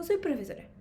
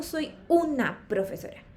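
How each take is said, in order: First: Said in the usual way. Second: UNA set apart and emphasized; stress on UNA. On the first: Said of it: "porque en español yo digo". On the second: Shown as a demonstration. Teacher showing the English article, stress on UNA. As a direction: lean on the word UNA. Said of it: "no digo profesora".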